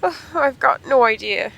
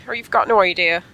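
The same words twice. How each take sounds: First: Line read as Sonya, a bit higher and slow; slow, lightly raised character read. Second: Said in the usual way. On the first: Shown as a demonstration. Reading Sonya's line aloud in a slow, slightly raised character voice.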